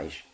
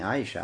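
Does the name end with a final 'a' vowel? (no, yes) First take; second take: no; yes. First: The name is cut short without the final vowel. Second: The name ends with a final 'a' vowel. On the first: The speaker calls it right. "Это усечение с конца" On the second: The speaker calls it wrong. "не Аиша"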